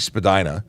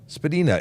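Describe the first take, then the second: First: The name gets its common everyday pronunciation. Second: The name gets its original surname pronunciation. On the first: This is how most people refer to the street. The speaker calls it wrong. "that's the common the common way to refer to it, even though it's not correct" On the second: This is how the family surname is really said. The speaker calls it right. "Spadina is the actual name"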